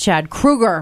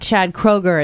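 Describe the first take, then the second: First: The surname's first vowel sounds like 'oo'. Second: The surname's first vowel sounds like 'oh'. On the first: The speaker calls it right. "it's [name]" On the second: The speaker calls it wrong. "it's not [name]"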